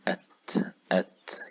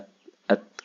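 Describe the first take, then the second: First: The t is released with an audible puff of breath. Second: The t is held back with no breath released. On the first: The speaker calls it right. "كأني بهمس وبلمس فيها" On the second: The speaker calls it wrong. "لو ما خرجتش النفس ده ... كأنها مكتومة"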